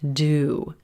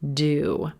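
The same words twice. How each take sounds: First: The word has a full, clear 'oo' vowel. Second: The word has a full, clear 'oo' vowel.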